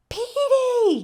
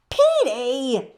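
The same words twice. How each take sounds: First: High, loud call across the street. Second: Louder scolding call of the name. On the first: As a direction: call the bird down from the roof, much higher and louder. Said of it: "called the tiny woman". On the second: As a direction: tell the naughty bird off, loud. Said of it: "scolded the tiny woman". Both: Acted.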